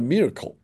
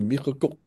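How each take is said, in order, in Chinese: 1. 这个名字按英语发音。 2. 这个名字按法语发音。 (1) "英文叫Miracle" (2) "它其实法语就是Miracle"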